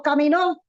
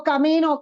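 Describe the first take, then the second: First: Caminó with the final NÓ stressed and rising; caminó, stress on the last syllable. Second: Camino said with the stress on the middle syllable, ca-MI-no. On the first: Preacher contrasting caminó with camino, stress on the last syllable. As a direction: land hard on the end of caminó. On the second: Preacher contrasting camino with caminó, stress on the middle syllable. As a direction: stress the second syllable of camino, not the last. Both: Shown as a demonstration. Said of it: "No es lo mismo camino, caminó".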